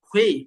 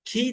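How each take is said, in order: First: The syllable is heavy, with rounded lips. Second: The syllable is light, with spread lips. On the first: The speaker calls it right. "মুখটাকে গোল রাখতে হবে" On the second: The speaker calls it wrong. "খি না"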